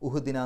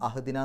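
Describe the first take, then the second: First: The word begins with a 'u' vowel. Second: The word begins with an 'a' vowel. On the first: "ഉഹ്ദിന എന്ന് പറയില്ല" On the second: "അഹ്ദിന എന്ന് പറയില്ല"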